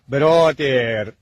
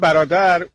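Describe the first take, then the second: First: The end of the word is stretched out. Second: The word ends short, without stretching. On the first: This is how English speakers say it. "اونا کلماتشو آخرش یه خورده میکشن" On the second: This is how Persians say it. "ما میگیم برادر"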